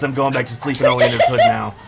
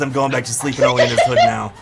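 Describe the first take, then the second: First: It is read in a put-on character voice. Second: It is read in a put-on character voice.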